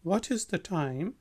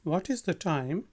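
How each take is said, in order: The two takes are said the same way.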